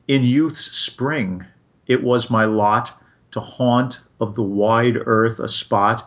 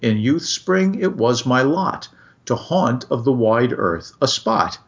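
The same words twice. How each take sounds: First: The line is read slowly and evenly. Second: The line is read quickly with bouncy rhythm. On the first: The tension with the poem's theme still comes through. "if you read it that way, the way I just did" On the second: It follows where the rhythm of the words pulls. "as opposed to the way you did"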